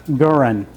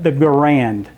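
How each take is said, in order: First: "Gurin" stressed on the first syllable. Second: "Garand" stressed on the second syllable. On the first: Lecturer showing how the inventor's name is pronounced, first-syllable stress. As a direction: say "Gurin" with the weight up front, "GUR-in". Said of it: "More emphasis on the first syllable". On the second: Lecturer showing how Americans say the rifle's name, second-syllable stress. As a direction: say "Garand" with the weight on its last syllable, "guh-RAND". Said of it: "accentuating the second syllable". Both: Shown as a demonstration.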